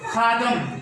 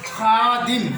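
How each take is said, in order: First: The second vowel is not an 'i' sound. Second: The second vowel is an 'i' sound. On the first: The speaker calls it wrong. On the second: The speaker calls it right.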